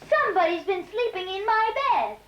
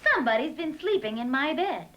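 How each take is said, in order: First: The voice is small, high and tiny. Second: The voice is medium in pitch and size. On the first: A small creature is speaking. "in his tiny voice" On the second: A medium-sized creature is speaking. "in her middle-sized voice"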